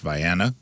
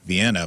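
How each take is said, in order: First: The name is said the local Illinois way. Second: The name is said the usual European way. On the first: "but it's pronounced Vienna" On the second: "There's a Vienna"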